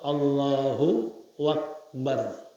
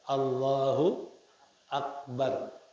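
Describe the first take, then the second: First: A voweled wa syllable links the two words. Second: No extra sound links the two words. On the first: The speaker calls it wrong. "biharakatiha, dengan harakah wawu" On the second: The speaker calls it right. "Yang benar"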